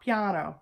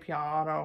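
First: The ah vowel is said high and bright. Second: The ah vowel is said low and dark. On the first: The speaker calls it right. "It has a high ah" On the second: The speaker calls it wrong. "like really low"

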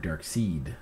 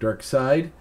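First: The second part rhymes with 'need'. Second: The second part rhymes with 'ride'. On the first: The speaker calls it wrong. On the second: The speaker calls it right.

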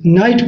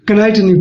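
First: The word starts directly with an n sound. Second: The word starts with a k sound before n. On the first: The speaker calls it right. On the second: The speaker calls it wrong.

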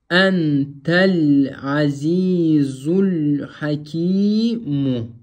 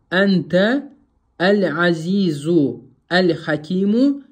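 First: The words are run together without breaks. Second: Each word is read separately with full articles. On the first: The speaker calls it right. "слова должны соединяться при чтении между друг другом" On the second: The speaker calls it wrong. "это означает, что вы не усвоили правило васля"

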